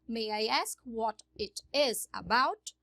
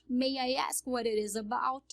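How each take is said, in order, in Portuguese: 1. O t em "it is" é um t claro. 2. O t em "it is" soa como um r. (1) "Eu posso falar it is" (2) "Eles juntam aqui o T com o I e viram um R"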